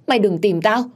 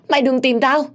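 First: High, loud panicked begging; frightened plea. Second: Much higher and louder shrieked plea; hysterical scream. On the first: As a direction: beg the ghost to leave her alone. (van xin hoảng sợ) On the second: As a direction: shriek it at the peak of terror. (gào thét kinh hãi) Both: A narrator's reading. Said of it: "ôm đầu và la hét".

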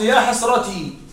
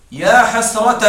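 First: حسرتي ending in a long "ee"; original ya ending. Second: حسرة said as "hasrataa", ending in long "aa"; louder يا حسرة with a long "aa" ending; final alif. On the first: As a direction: finish حسرتي on a clear "tee". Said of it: "الأصل". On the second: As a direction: open the end of حسرة into a held "taa". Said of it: "قلبها ألفا". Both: Shown as a demonstration.

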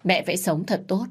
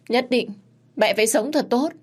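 First: Said in the usual way. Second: "Nhất định, mẹ phải sống thật tốt" cried out much higher and louder; anguished cry. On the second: Acted. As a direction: cry it to his mother as a last plea. (gào lên cao và to "mẹ phải sống thật tốt") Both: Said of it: "Thái Phi lúc này không ngừng gào thét".

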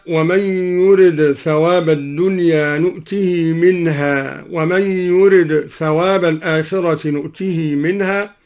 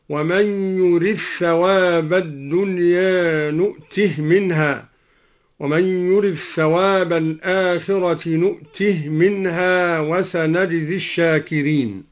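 First: Said in the usual way. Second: يرد ثواب merged as "yurith-thawab", نؤته as "nu'tih"; idgham and silent vowel. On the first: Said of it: "قرأ الدوري بإدغام الدال في الثاء". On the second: Shown as a demonstration. Teacher shows al-Duri's reading: يرد ثواب merged, نؤته ending in still h. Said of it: "بإدغام الدال في الثاء وإسكان الهاء من نؤته".

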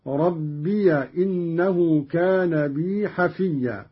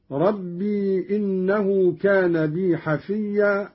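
First: ربي said as "rabbiya" before إنه; slow recitation, ربي as rab-bi-ya; fatha on ya. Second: Said in the usual way. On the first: Shown as a demonstration. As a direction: open the ya of ربي with a short a. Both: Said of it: "قرأ قالون بفتح الياء هكذا".

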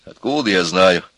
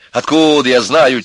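First: Said in the usual way. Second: Higher, louder irritated retort; exasperated repeat. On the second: A narrator's reading. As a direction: flare up at the question. Repeats the answer, flaring up. (раздражённый громкий ответ)

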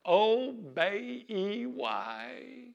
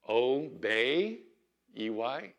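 First: Put-on high piping child's voice; little girl voice. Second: Said in the usual way. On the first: Little Southern girl spelling obey for her mama, high and proud. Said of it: "Brittany Lynn would go". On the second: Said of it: "You had to be there".

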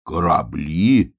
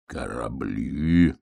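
First: Slow, drawn-out puzzled question; amazed. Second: Put-on very slow, low old wolf; musing old wolf, chewing lips. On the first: Acted. Bear cub hears about ships, slowly amazed. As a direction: stretch the word in mild wonder. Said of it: "изумился медвежонок". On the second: Old wolf ponders hedgehog's ships, slow mumbling musing. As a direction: draw the word out low, mulling it. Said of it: "пожевал губами волк".

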